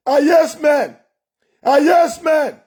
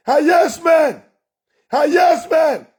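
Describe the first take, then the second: No difference in how they are said.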